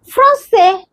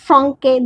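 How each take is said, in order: First: The consonant before the last vowel is an s sound. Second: The consonant before the last vowel is a k sound. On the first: The speaker calls it right. "This is S, français" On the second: The speaker calls it wrong. "not franque"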